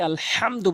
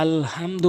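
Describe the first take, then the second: First: আলহামদু with a strong mid-throat h. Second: আলহামদু with an ordinary light h; mistaken soft h. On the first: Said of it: "হলকের মাঝখান থেকে". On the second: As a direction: say আলহামদু wrongly, h not from mid-throat. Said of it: "মারাত্মক লেভেলের ভুল করে". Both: Shown as a demonstration.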